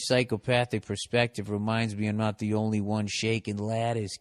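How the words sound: It is read in a Boston accent.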